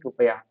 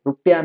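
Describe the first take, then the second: First: रुपया said as rupaya, with a short a in the middle; correct pronunciation. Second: रुपया said as rupiya, with an i in the middle; wrong pronunciation. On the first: Teacher giving students the correct form: रुपया as rupaya. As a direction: say रुपया the right way, as rupaya, falling. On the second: Teacher showing students the wrong form: रुपया as rupiya. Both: Shown as a demonstration. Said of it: "रुपया नहीं".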